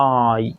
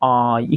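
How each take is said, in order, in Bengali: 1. স্বরটি টানা ও হালকা। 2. স্বরটি টানা ও হালকা।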